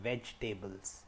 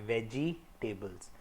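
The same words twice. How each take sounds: First: No vowel follows 'veg', giving three syllables. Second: A clear 'i' vowel follows 'veg', giving four syllables. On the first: The speaker calls it right. "इसमें ये ई या आई की sound हटी जाएगी, तो इसको हम बोलेंगे वेजिटेबल्स" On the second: The speaker calls it wrong. "India में बहुत लोग वेजिटेबल्स बोलते हैं ... तो ये गलत है"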